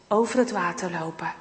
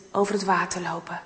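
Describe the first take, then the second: No difference in how they are said.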